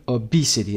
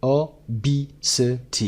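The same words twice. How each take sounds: First: "Obesity" as o-BEE-sity; stress on second syllable. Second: "O, B, C, T" as four separated beats of obesity; syllable by syllable. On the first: Teacher showing word stress, second syllable of "Obesity" stressed. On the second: Teacher sounding out obesity for learners, four separate beats. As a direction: break it up evenly, "O, B, C, T". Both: Shown as a demonstration. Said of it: "استرس روی قسمت B".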